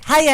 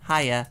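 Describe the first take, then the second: First: The greeting sounds bright, lively and cheerful. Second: The greeting sounds hesitant, dull and unenthusiastic. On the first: The speaker calls it right. "I had to learn the right kind of inflection and tone" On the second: The speaker calls it wrong. "that doesn't sound very fun or cheerful"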